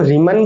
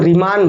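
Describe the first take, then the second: First: रीमन with a short unstressed a in the last syllable, "REE-mun"; short-vowel pronunciation. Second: रीमान with a long open aa in the last syllable, "ree-MAAN"; long-aa pronunciation. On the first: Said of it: "बहुत से लोग रीमन बोलते हैं". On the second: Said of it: "बहुत से लोग रीमान बोलते हैं". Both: Shown as a demonstration.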